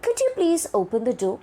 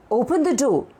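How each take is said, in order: First: Quick, higher-pitched request, "you" lifted; polite request. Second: Higher-pitched command, falling on "door". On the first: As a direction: ask "open the door" as a request. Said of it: "It is put forth as a request". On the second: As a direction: give "Open the door" as an order. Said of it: "is a command". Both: Shown as a demonstration.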